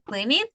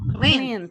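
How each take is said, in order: First: The ending is said as an extra syllable. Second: The ending is a single consonant, no extra syllable. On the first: The speaker calls it wrong. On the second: The speaker calls it right.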